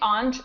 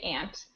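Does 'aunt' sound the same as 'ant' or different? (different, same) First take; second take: different; same. First: Its vowel differs from the vowel in ant. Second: Its vowel matches the vowel in ant. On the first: The word is kept apart from the insect name. "I'm pronouncing it aunt so that we can differentiate" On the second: This is the everyday way of saying it. "most of the time I say aunt"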